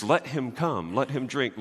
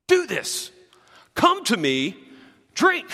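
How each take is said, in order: First: Gentle, softer, an optional offer; soft invitation. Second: Commanding, with drink pitched up and pushed out; firm command. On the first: Pastor showing the congregation the soft English rendering, gently. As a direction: read it as a mild invitation, easing off the volume. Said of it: "The way that the English translations put it is". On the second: Pastor showing the congregation the original Greek imperative, firmly commanding. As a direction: give an order, not an invitation. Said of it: "it's crystal clear in the original". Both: Shown as a demonstration.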